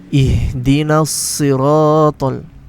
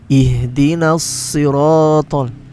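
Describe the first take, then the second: First: Siratal starts with a heavy, emphatic s. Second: The same.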